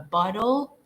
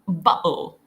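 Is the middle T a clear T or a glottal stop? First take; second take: clear T; glottal stop. First: The middle T is clearly pronounced. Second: The middle T becomes a glottal stop. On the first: "that's kind of American accent ... you pronounce the T there" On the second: "a Cockney accent they go like this"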